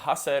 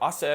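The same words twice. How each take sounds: First: It begins with an audible H sound. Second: It begins directly with a vowel. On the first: This is the Old Spanish pronunciation. "and not hacer" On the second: This is the modern Spanish pronunciation. "obviously I said hacer"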